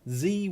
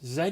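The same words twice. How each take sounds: First: The letter is said as 'zee'. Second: The letter is said as 'zed'.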